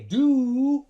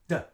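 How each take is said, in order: First: The word has a long full 'oo' vowel. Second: The word has a short schwa vowel. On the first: The speaker calls it wrong. "the vowel sound ooh is too long" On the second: The speaker calls it right. "We will use schwa"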